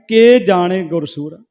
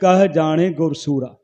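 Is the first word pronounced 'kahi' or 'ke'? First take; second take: ke; kahi. First: The first word is pronounced as 'ke'. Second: The first word is pronounced as 'kahi'. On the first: What does the Guru know? The speaker calls it wrong. "ਉਹ ਪੜ੍ਹ ਰਿਹਾ ਸੀ ਕੇ ਜਾਣੇ ਗੁਰੂ ਕੀ ਜਾਣਦਾ" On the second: The Guru, the hero, knows the Creator's greatness. The speaker calls it right. "ਉਸ ਪੰਕਤੀ ਦਾ ਸ਼ੁੱਧ ਉਚਾਰਨ ਹੈ"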